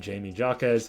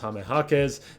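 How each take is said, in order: First: The name is said in an Americanized way. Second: The name is said in its original, non-American way. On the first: "the American way where people say" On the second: "supposedly his actual name to say his name is"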